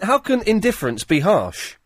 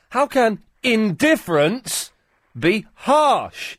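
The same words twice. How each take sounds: First: It is said with mild, ordinary emphasis. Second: It is said with strong, exaggerated emphasis.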